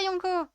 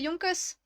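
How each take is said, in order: First: The final consonant is silent. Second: The final consonant is pronounced. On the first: The speaker calls it wrong. "ça se prononce ou pas?" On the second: The speaker calls it right. "donc c'est Yonkos"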